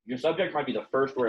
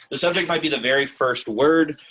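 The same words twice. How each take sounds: First: Said in the usual way. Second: Repeated after a glitch, noticeably louder; a firmer, louder second take; louder retake. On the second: Shown as a demonstration. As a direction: say it again louder and clearer. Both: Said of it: "I don't know why that happened".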